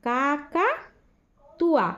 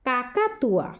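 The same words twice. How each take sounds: First: কাকাতুয়া said slowly and clearly, every syllable held; slow careful pronunciation. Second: Said in the usual way. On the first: Shown as a demonstration. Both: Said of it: "এবার উচ্চারণ করে আমি তোমাদের এগুলো শোনাবো".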